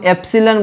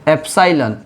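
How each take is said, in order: First: The middle vowel sounds like 'ih'. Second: The middle vowel sounds like 'eye'. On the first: "ऐसे हम एप्सिलन बोलते हैं" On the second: "हम लोग physics में इसको एप्साइलन बोलते हैं"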